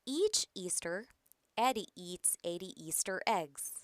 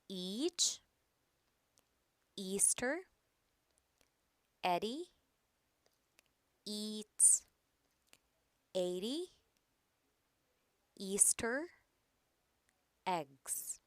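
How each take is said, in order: First: It is read faster, words run together. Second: It is read slowly, word by word. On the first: "A little bit faster" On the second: "Let's read it slowly first"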